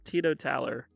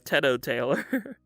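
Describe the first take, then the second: First: The ending sounds like the word taller. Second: The ending sounds like the name Taylor. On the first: The speaker calls it right. "But no" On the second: The speaker calls it wrong. "I thought I read that as like Teto, like the Vocaloid, and then Taylor"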